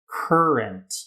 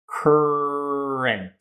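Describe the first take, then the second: First: The word is said at a quicker pace. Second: The word is said slowly and drawn out. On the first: "say it a bit faster" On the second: "You can start it slow"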